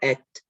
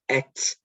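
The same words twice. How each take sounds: First: The t ends cleanly with no added sound. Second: The t ends with an extra trailing sound. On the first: The speaker calls it right. "That's how you say it" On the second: The speaker calls it wrong. "not et"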